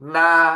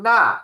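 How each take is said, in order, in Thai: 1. ออกเสียงด้วยเสียงที่หนึ่ง 2. ออกเสียงด้วยเสียงที่สี่ (1) "เสียงที่ 1" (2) "เสียงที่ 4"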